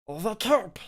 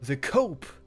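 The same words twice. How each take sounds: First: It is said in a put-on character voice. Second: It is read out in a normal voice.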